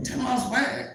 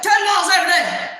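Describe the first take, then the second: First: Soft, higher, questioning echo; taken-aback small voice. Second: High, fast mimicked shout; barking loud boss. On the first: Retold or imitated. Newcomer questioning the boss's order, small doubtful voice. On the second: Boss greeting her in Florida with training orders, shouting. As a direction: fire it out like a loud coach. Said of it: "he's loud".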